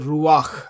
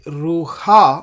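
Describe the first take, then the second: First: The a vowel comes before the h sound. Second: The a vowel comes after the h sound. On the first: The speaker calls it right. "the sound of the patach comes first, and then the letter het" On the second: The speaker calls it wrong. "We don't say ruha"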